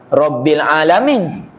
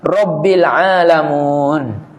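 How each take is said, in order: First: The last word ends with an 'in' sound. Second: The last word ends with an 'un' sound. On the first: The speaker calls it right. "Sepatutnya kita baca" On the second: The speaker calls it wrong. "Seperti dibacanya seorang"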